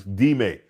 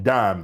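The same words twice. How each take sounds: First: "Dime" said DEE-may, two syllables; Spanish pronunciation. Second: "Dime" said like the English coin, one syllable; English mispronunciation. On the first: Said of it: "D I M E". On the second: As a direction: say "Dime" to rhyme with time. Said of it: "I called it Dime". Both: Shown as a demonstration.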